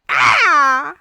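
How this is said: The cry sounds sad and wounded.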